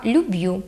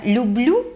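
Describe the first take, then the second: First: Люб'ю with b straight into yu; no inserted л. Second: Said in the usual way. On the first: Shown as a demonstration. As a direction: Podillia люб'ю, "lyub-YU". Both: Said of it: "не відбувається чергування".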